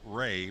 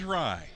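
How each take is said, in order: First: The vowel sounds like the one in day. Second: The vowel sounds like the one in eye. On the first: The speaker calls it wrong. "I'm mixing up Rye's name and calling him Ray" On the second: The speaker calls it right. "But his name is Rye, as in rye bread"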